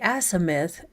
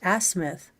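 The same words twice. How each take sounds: First: The middle vowel is fully and carefully pronounced. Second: The middle vowel is short and reduced. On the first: The speaker calls it wrong. "it sounds like you're, well, trying to put on airs" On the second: The speaker calls it right. "you don't have to overpronounce the I. It's just azimuth"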